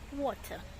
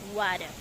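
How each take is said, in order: First: It is said in a Kenyan accent. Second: It is said with a twangy foreign accent.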